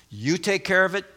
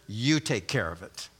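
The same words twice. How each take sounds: First: Raised, open-ended instruction to one person; addressing the first. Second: Much lower, softer echo of the instruction; addressing the second. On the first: Preacher voicing Paul to the first woman, raised instruction. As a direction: turn to one party, voice held up. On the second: Preacher voicing Paul to the second woman, low and soft. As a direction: drop down for the other party. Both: Acted. Addressing each of two women in turn.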